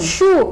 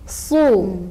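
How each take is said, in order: First: The s becomes a hushing sh sound. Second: The s sound is thick and emphatic. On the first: The speaker calls it wrong. "Atau shu, itu salah" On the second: The speaker calls it right. "tapi so, si, su"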